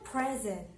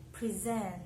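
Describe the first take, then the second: First: "Present" as the noun, PREZ-ent; stress on first syllable. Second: "Present" as the verb, pre-ZENT; stress on second syllable. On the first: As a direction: hit the start of "Present". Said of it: "stress is on the first syllable". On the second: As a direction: lean on the end of "Present". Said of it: "stress is on the second syllable". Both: Shown as a demonstration.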